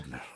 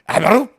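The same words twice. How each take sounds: First: It sounds angry. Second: It sounds dumbfounded and stunned.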